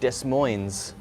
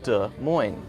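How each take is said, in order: First: The S sounds are pronounced as spelled. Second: The S sounds are silent. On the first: The speaker calls it wrong. "which looks like Des Moines, but it's not said that way" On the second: The speaker calls it right. "It's a French word. We say it as Des Moines"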